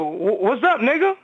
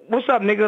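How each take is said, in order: First: It sounds warm and friendly. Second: It sounds hostile and confrontational. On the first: The speaker is greeting a friend. "then I would say it back to you" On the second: The speaker is ready to fight. "you're not my man right now. We about to go at it"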